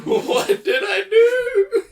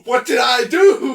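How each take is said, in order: First: High, loud, slow fake crying; mock wail. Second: Mock panic. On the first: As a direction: wail it like a hammed-up sob. Echoes the mock apology, wailing. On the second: Mocking friend's panicked call.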